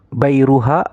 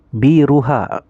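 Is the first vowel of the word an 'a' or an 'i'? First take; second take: a; i. First: The first syllable has an 'a' vowel. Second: The first syllable has an 'i' vowel. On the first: "boleh dibaca fathah" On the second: "Baknya boleh dibaca kasrah"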